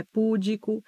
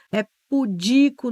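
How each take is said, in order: First: Púdico said PU-di-co, stress on the first syllable; wrong pronunciation. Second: Pudico said pu-DI-co, stress on di; correct pronunciation. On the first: Teacher shows students the mistaken púdico, stress on pu. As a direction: put the weight on pú in púdico. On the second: Teacher models pudico for students, stress on di. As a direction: stress the second syllable of pudico. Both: Shown as a demonstration. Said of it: "não é púdico".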